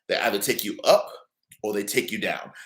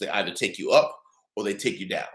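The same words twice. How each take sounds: First: It is spoken at a slower, deliberate pace. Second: It is spoken at a normal, quicker pace.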